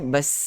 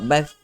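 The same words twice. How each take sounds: First: The consonant is a hissing s sound. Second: The consonant is a lisped th sound. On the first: The speaker calls it right. "Kalau lidah disorokkan bas" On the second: The speaker calls it wrong. "Kalau keluar lidah jadi huruf sa"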